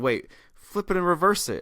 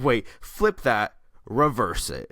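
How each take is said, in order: First: It is said in a lively, upbeat way. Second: It is said as a sassy declaration.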